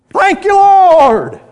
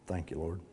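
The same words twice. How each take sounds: First: It is said loudly and forcefully. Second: It is said quietly and held back. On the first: The gratitude is overflowing from the heart. "You know why I said it with a loud voice?" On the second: The gratitude is kept modest and private. "He didn't just say"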